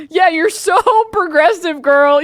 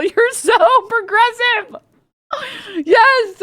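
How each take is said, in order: First: Higher, louder, mocking sass; mock them with fake praise; sneering fake compliment; sarcastic mockery. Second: Much higher and slow, drawn-out mock praise; hammed-up sneering praise; exaggerated sarcasm. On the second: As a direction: stretch it out in full sarcasm. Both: Mocking a smug tweeter.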